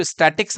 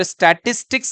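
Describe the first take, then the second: First: "स्टैटिक्स" with the middle "tis" dropped; swallowed middle syllable in "स्टैटिक्स"; hurried mispronunciation. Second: "स्टैटिस्टिक्स" with all three syllables, sta-tis-tics; every syllable of "स्टैटिस्टिक्स" sounded; full correct pronunciation. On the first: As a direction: say "स्टैटिक्स" in two syllables, sta-tics. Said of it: "जल्दी में स्टैटिक्स बोल देते हैं". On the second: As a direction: keep the middle "tis" in "स्टैटिस्टिक्स". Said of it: "स्टैटिक्स अलग है". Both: Shown as a demonstration.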